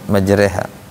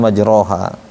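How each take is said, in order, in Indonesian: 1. Vokal setelah r dibengkokkan ke arah e. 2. Vokal setelah r adalah o terbuka penuh. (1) "Gitu bacanya, majreha" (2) "bukan majroha"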